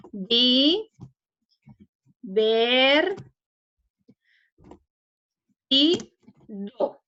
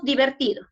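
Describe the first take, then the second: First: Di, ver, y, do split with long pauses; syllable by syllable. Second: Said in the usual way. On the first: Shown as a demonstration. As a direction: draw out each syllable of Di, ver, y, do separately. (separando en sílabas: Di, ver, y, do, con pausas largas) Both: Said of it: "separemos divertido en sílabas".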